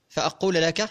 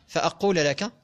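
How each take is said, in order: The two takes are said the same way.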